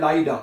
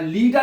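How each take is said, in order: First: The first vowel sounds like 'eye'. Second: The first vowel sounds like 'ee'. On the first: The speaker calls it right. "लाइडा ऊपर लिखना चाहिए" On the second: The speaker calls it wrong. "क्या लीडा नहीं पहना"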